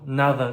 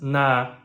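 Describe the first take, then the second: First: The word is said in full. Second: The middle sound is dropped, leaving one syllable.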